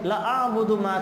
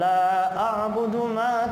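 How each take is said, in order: First: The vowel in 'la' is cut short. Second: The vowel in 'la' is held long. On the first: The meaning of the verse is distorted. The speaker calls it wrong. "लाम के बाद अलिफ नहीं पढ़ा, लंबा नहीं किया" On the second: I do not worship what you worship. The speaker calls it right. "लाम के बाद अलिफ है, मतलब अलिफ मिलाया तो सही है"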